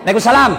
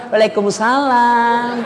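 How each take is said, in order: First: Brisk, no-nonsense phone answer "Waalaikumsalam"; firm answer. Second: "Waalaikumsalam" stretched out slowly and cooingly; drawn-out sweet answer. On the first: Girl answering a boy's call firmly and briskly. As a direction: say "Waalaikumsalam" short and businesslike. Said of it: "kalau kau tegas terima telepon". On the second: Girl answering boyfriend's call, slowly and sweetly. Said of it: "jangan kau juga mendayu-dayu". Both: Shown as a demonstration.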